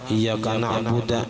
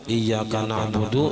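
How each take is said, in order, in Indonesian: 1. Frasa ini diakhiri dengan vokal 'a'. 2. Frasa ini diakhiri dengan vokal 'u'.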